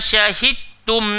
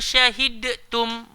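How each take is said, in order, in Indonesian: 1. Bunyi d menyatu sepenuhnya ke dalam t. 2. Bunyi d dibaca terpisah sebelum t.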